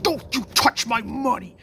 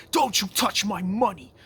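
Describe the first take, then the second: First: Much higher and louder hammed-up villain scream; full mock scream. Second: High, loud mock TV villain shout, guarding his cash; hammed-up furious yell over the money; imitating an angry yell. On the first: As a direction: go all out, shrieking at the guy burning the cash. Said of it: "he's like, he's like". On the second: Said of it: "That episode where he's like".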